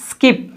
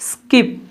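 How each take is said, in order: No difference in how they are said.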